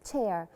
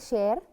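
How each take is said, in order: First: The word begins with a t-like ch sound. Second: The word begins with a soft sh sound. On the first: It means a seat. The speaker calls it right. "No, it's a chair" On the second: It would mean a share or portion. The speaker calls it wrong. "We don't say chair"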